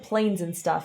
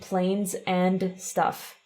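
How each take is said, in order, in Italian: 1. La parola 'and' è ridotta e si sente appena. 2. La parola 'and' è pronunciata per intero. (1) "Cosa ha detto" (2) "Invece di"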